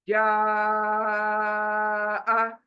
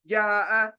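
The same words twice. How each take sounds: First: The vowel is stretched for four counts. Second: The vowel is cut short without stretching. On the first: The speaker calls it right. "चार उंगलियां बंद करो" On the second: The speaker calls it wrong. "मद को छोड़ रही हूँ और पढ़ रही हूँ"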